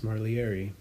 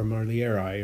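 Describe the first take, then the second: First: "marlieri" ending in an "ee" sound; alternate pronunciation. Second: "marlieri" ending in an "eye" sound; alternate pronunciation. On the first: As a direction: say "marlieri" as mar-lee-AIR-ee. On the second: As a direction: say "marlieri" as mar-lee-AIR-eye. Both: Shown as a demonstration. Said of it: "or however you wanna say it".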